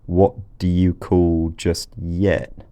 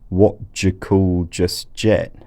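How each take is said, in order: First: The d and y sounds stay separate. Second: The d and y merge into a j sound. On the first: "Instead of saying" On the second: "she says, Yod coalescence across word boundaries"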